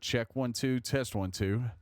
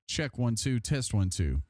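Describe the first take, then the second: First: The voice is heard without the extra equalizer. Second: The voice is heard through the extra equalizer. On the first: The speaker calls it wrong. "It's off at the moment" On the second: The speaker calls it right. "it sounds better with the extra E Q added"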